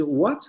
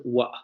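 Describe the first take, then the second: First: "what" with a full final T; "what" ending crisply on the T; standard what. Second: "wa" with the final T swallowed; glottalized what. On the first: Teacher demonstrating the standard "what". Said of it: "en lugar de decir what". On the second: Teacher showing the glottalized "what". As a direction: say "wa", stopping in the throat. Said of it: "van a decir wa". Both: Shown as a demonstration.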